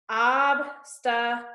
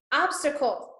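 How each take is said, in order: First: Obstacle split into three slow, separate syllables; deliberate syllable count of obstacle. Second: Said in the usual way. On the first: Shown as a demonstration. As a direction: say obstacle slowly with a gap after each syllable. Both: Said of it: "count how many syllables".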